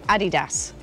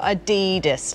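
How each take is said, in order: First: The stress falls on the first syllable. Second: The stress falls on the second syllable. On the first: This is how British people say it. "British people say Adidas" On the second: This is how people outside Britain say it. "not Adidas"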